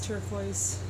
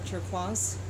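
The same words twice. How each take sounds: First: The word is pronounced with English sounds. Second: The word is pronounced with French sounds.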